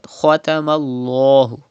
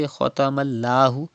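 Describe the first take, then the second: First: "Khatamallahu" with a heavy "lloh"; thick Lam. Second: "Khatamallahu" with a light "llaa"; mistaken thin Lam. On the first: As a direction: darken and round the l in "Khatamallahu". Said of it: "read Lam with thicker voice". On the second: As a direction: say "Khatamallahu" with a thin, open l sound. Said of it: "Don't say Khatamallahu". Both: Shown as a demonstration.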